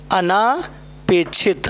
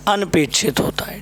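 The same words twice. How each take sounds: First: अनापेक्षित drawn out slowly; slow wrong form. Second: अनपेक्षित whispered; whispered correct form. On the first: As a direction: stretch अनापेक्षित as the mistake. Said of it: "अनापेक्षित नहीं होता है मेरे दोस्त". (धीरे से गलत रूप अनापेक्षित) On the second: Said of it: "अना नहीं होता". (फुसफुसाकर सही रूप अनपेक्षित) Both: Shown as a demonstration.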